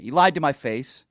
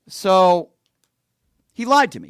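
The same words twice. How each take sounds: First: Said in the usual way. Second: Louder, higher burst of outrage; loud outburst. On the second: Real, not acted. Venting to viewers that he was lied to, loud outburst. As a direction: spit it out loud and high, indignant. Angry rant about being lied to.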